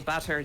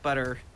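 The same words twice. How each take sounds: First: It is said in a fancy, careful way. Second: It is said in an American-sounding way. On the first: "I always try to say butter just because I'm fancy" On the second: "but I hear like butter"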